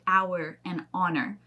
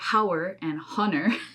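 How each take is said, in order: First: The words begin without any H sound. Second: The words begin with an audible H sound. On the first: The speaker calls it right. "you don't pronounce that H at all" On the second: The speaker calls it wrong. "So you don't say hour and honor. That sounds so weird"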